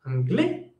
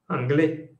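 First: ANGLAIS swept upward at the end, like a question; rising ending. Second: ANGLAIS without the questioning lift, as a statement; statement ending. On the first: Teacher showing how the sound climbs at the end, rising intonation. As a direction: lift the last syllable of ANGLAIS. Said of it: "el sonido monta al final". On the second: Teacher contrasting it with the rising question, statement intonation. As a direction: say ANGLAIS with the last syllable kept down. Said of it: "si escuchan el sonido monta al final". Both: Shown as a demonstration.

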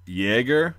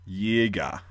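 First: Jäger with a Y start and an audible American R, pitch rising; R pronounced. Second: Jäger as YAY-gah, the final R dropped; German final R. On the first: Teacher showing viewers the J as Y, R pronounced. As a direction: say Jäger like YAY-grr, R sounded. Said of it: "they don't pronounce the R". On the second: Teacher showing the last R in German, Jäger with R unpronounced. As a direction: end Jäger on an open "ah", falling. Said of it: "they don't pronounce the R really on the last". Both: Shown as a demonstration.

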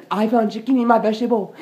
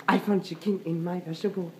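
First: Indignant repeat. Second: Said in the usual way. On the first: Pretend. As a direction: say it again with rising outrage. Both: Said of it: "someone going to pay".

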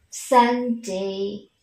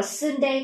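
First: "Sunday" with a short open a-like u, san-day; correct pronunciation. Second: "Sunday" with a closer uh vowel, sern-day; wrong pronunciation. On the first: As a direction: give "Sunday" a short open first vowel. (đọc "Sunday" với âm "ă" ngắn) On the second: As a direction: say the u of "Sunday" as Vietnamese ơ. (đọc sai "Sunday" thành "sơn-đây") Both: Shown as a demonstration. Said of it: "chúng ta sẽ không đọc là".

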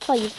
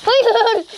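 First: Said in the usual way. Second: High, loud shout of no; panicked no. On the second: Real, not acted. Gamer watching his character die, high panicked shout. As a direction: yell it as you fall.

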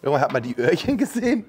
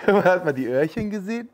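First: Said in the usual way. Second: Giggling through it, higher; laughing. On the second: Real, not acted. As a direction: repeat it while laughing. Repeats line laughing.

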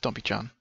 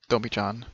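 No difference in how they are said.

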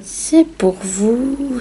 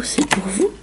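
First: Very slow and higher; drawn out. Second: Softly repeated; quiet repeat. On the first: Giving the code to the viewers, slow and drawn out. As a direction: stretch every syllable out. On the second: Repeating to the viewers that the code is theirs, softly. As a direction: drop the voice on the second time. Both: Real, not acted.

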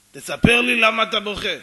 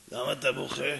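First: Very loud, forceful order to tell; acted shouting insistence; insistent demand. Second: Low, contained inquiry; nosy stranger, first calm ask; stranger's question. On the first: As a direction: boom it at him, refusing to let go. Stranger insists on an answer. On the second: Acted. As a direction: ask it in a lowered character voice. Stranger first asks the crying man.

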